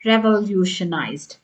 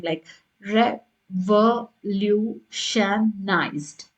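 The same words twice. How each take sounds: First: Said in the usual way. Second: Revolutionized split into slow separate syllables, re-vo-lu-tion-ized; broken down slowly. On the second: Shown as a demonstration. Teacher showing test takers how to split the word revolutionized, syllable by syllable. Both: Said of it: "you can break it down".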